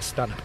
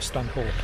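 First: It is said the local way. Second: It is said the way it is spelled. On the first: The speaker calls it right. "The locals call it Stanhope" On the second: The speaker calls it wrong. "not Stanhope"

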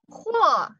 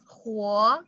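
First: The pitch falls sharply through the syllable. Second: The pitch rises through the syllable. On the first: "How do we pronounce this in the fourth tone?" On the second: "do you want to try to pronounce this as the second tone?"

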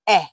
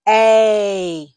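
First: The vowel is short and clipped. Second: The vowel is long and drawn out. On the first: "short A" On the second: "long A"

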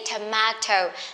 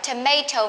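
First: Tomato is said with a British pronunciation. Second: Tomato is said with an American pronunciation. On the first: "for British English, you can say tomato" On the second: "Tomato for American English"

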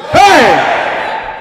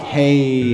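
First: It is a loud, dramatic shout. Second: It is a casual, friendly greeting.

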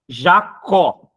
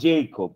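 First: The name ends on an open vowel, no b. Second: The name ends with a b sound. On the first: The speaker calls it right. "A pronúncia é Jacó" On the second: The speaker calls it wrong. "Tem gente falando Jacob. Não"

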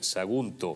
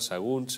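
First: The last syllable of the word is pronounced. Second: The last syllable is dropped from the word. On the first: The speaker calls it right. "Que no, Pepe, Sagunto" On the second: The speaker calls it wrong. "se come la última sílaba"

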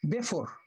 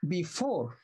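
First: The stress falls on the first syllable. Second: The stress falls on the second syllable. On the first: The speaker calls it wrong. "not before. If you put stress on the first syllable" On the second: The speaker calls it right. "you put stress on the four, right? You say before"

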